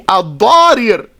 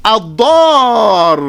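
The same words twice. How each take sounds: First: "Al-Darir" with two separate r sounds; original unmerged form. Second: "Al-Dar" with long a and one held, doubled r; merged ra's. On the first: Teacher showing what it originally would be, "Al-Darir" with both ra's apart. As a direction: say "Al-Darir" in full, long a, then a second syllable "rir". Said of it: "originally it would be". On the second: Teacher showing what it becomes, "Al-Dar" with the two ra's merged. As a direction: stretch "Al-Dar" and hold the final r. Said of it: "merge them together". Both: Shown as a demonstration.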